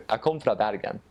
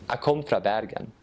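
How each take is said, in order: Both takes have the same delivery.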